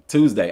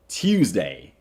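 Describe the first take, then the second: First: It is said in his natural Southern accent. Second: It is said in an exaggerated, mocking voice. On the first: This is how the speaker really says it. "that's how I say Tuesday" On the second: This is how others claim the speaker says it. "I don't say Tuesday. I'm not Norbit"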